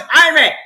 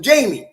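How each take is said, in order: First: The name begins with an H sound. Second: The name begins with a J sound. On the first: The speaker calls it right. "they use the H sound and no J sound" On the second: The speaker calls it wrong. "I kept calling him Jamie"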